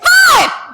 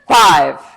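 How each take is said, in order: First: It is yelled with the pitch jumping up. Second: It is loud with the pitch staying level.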